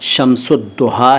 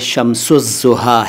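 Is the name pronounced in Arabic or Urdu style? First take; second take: Arabic; Urdu. First: The name is pronounced in an Arabic style. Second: The name is pronounced in an Urdu style. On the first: "अगर आप अरबी अंदाज़ में पढ़ें तो ये शम्सुद्दुहा है" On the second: "उर्दू स्टाइल में पढ़ें तो ये शम्सुज़्ज़ुहा है"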